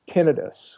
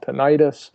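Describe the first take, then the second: First: It is said with the technical pronunciation. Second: It is said with the everyday lay pronunciation. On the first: This is the form specialists use. "a technical term" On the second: This is the form most people use. "what lay people call"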